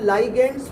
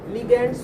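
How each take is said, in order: First: The first syllable has an 'eye' vowel sound. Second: The first syllable has a short 'i' vowel. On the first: This is a newer way people say it. "आजकल लाइगेंड्स बोलने लग गए, उसको नया pronunciation आ गया।" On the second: This is the usual way it is said. "उसको हम क्या बोल रहे हैं? लिगेंड्स बोल रहे हैं।"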